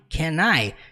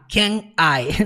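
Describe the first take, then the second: First: The N sound is linked straight into I. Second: The two words are said separately with a break. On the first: The speaker calls it right. "você junta, você fala can I" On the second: The speaker calls it wrong. "E nunca falar can I"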